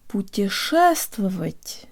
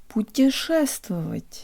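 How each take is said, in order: First: Only the stressed syllable is strong; others are reduced. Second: Only the stressed syllable is strong; others are reduced.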